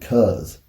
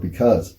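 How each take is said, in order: First: The word is shortened to one syllable. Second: The word is said in full, two syllables. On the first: "I say the word cuz" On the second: "I don't say the word because"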